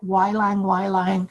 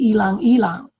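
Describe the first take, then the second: First: Each word begins with a 'y' sound. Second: Each word begins with an 'ee' sound. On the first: "so many ways to say it" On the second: "in the Philippines, we say ilang ilang. We make the Y and I"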